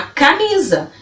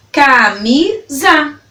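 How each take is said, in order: First: Said in the usual way. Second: CAMISA slowly split into ca - mi - za; three separated beats on CAMISA; syllable by syllable. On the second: Shown as a demonstration. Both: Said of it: "falando elas pausadamente pra você".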